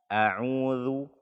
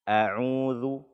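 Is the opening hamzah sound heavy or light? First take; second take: light; light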